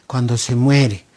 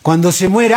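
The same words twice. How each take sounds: First: Said low and grave with weight on muere; solemn low Cuando se muere; deep grave stress. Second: Cuando se muere repeated louder, stress on muere; emphatic repetition of muere; louder insistent repeat. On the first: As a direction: drop the voice way down on muere. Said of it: "Cuando se muere, ahí valoran a la mamá". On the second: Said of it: "ahí valoran a la mamá". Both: Shown as a demonstration.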